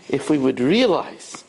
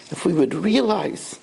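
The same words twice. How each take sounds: The two takes are said the same way.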